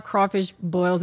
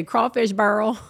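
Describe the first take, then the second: First: Said in the usual way. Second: "burl" said with an r-coloured vowel, like "bərl"; New Orleans burl. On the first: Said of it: "or we say burls". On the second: Shown as a demonstration. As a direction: say "burl" for boil, Louisiana style. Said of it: "instead of saying boil, we say".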